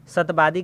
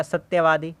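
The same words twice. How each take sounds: First: "सतवादी" as "sat-baadi"; wrong form. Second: "सत्यवादी" as "satya-vaadi"; correct form. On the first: Teacher recaps the wrong word, "सतवादी" said as sat-baadi. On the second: Teacher recaps the right word, "सत्यवादी" with tya and v. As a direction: clear y and v in "सत्यवादी". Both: Shown as a demonstration. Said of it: "समझा देते हैं शुद्ध रूप".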